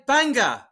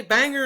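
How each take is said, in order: First: Banger as "bang-gah", English style; English accent. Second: Banger with a hard American R; American accent. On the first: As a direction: drop the final R, English accent. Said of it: "Banger in an English accent". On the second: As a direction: say banger the American way, sounding the final R. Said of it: "say banger in American accent". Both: Shown as a demonstration.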